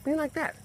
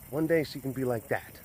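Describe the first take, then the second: First: "Be like that" echoed much higher; high, mock-exasperated "Be like that". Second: Said in the usual way. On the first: Shown as a demonstration. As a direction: repeat "Be like that" with a high, wry lift. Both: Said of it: "repeats it".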